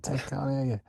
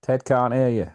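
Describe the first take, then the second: First: Repeated quote. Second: Mock call-out. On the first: Retold or imitated. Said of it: "I said". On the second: Quoting a sitcom line.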